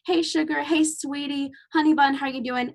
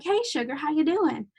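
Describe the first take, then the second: First: Higher, sweet Southern greeting; lightly voiced Southern patient calling her sugar. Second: Lightly voiced Southern charmer calling someone sugar; Southern greeting. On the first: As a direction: coo it like a friendly Southern patient. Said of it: "They'd come in saying". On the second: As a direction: greet her like a friendly Southern local. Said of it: "someone's gonna walk in and be like".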